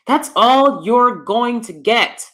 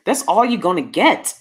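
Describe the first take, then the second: First: Slow it right down, every word separate and higher; slow, emphatic restatement. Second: Said in the usual way. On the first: Real, not acted. Vlogger driving home the honest truth to ladies, slow and emphatic. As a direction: spell out "going to get" in full, word by word.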